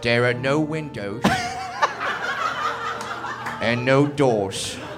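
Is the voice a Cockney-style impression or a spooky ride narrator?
Cockney impression. It uses a Cockney-style celebrity impression voice. "I want to hear Michael Caine doing the haunted house intro"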